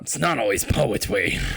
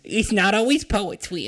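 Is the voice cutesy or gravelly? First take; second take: gravelly; cutesy. First: It is said in a rough, gravelly voice. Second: It is said in a cutesy baby-talk voice. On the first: "Gravelly voice" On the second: "I gotta give you the uwu"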